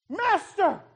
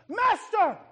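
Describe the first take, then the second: First: It is cried out in fear. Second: It is cried out in fear.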